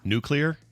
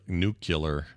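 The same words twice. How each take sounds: First: It is said like new plus clear. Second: It is not said like new plus clear. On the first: The speaker calls it right. "say the two words, new and clear. So if you say those together" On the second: The speaker calls it wrong. "It's like my dad's nuclear. ... he'd say that"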